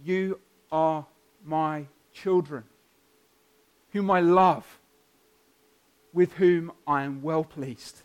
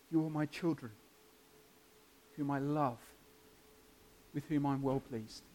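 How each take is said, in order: First: Slow, deliberate fatherly declaration; measured words with a pause after each phrase; God's voice. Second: Soft, hushed fatherly assurance; God's voice. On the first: God speaking to each baptized child, solemn declaration. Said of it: "it's as though he says to each of them". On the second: God assuring those trusting in Jesus, softly spoken. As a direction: quietly declare it, pausing between phrases. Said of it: "He can say that of you too". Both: Acted.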